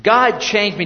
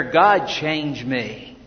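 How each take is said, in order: First: Said in the usual way. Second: Slow and a bit softer, each word weighed; slow heartfelt prayer. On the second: Shown as a demonstration. Pastor modelling the prayer for the congregation, slow and sincere. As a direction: pray it slowly, as if you mean it. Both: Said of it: "Do you ever pray that prayer".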